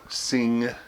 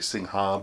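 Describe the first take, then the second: First: The final 'ha' syllable is left silent. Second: The final 'ha' syllable is pronounced aloud. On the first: The speaker calls it right. "it's not pronounced Singha. The ha part is like the P in psychiatrist" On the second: The speaker calls it wrong. "Some people say Singha"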